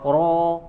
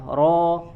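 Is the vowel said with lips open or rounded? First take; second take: rounded; open. First: The vowel is said with rounded lips. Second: The vowel is said with open lips. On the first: The speaker calls it wrong. "Jadi bukan ro" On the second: The speaker calls it right. "bukan dengan memonyongkan kedua kedua bibir, tapi dibuka"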